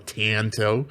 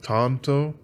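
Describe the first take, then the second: First: The first vowel is a flat 'a' as in cat. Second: The first vowel is an open 'ah' sound. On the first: It follows the usual American way of saying it. "an American style" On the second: It follows the word's Japanese origin. "the A's are pronounced as ah"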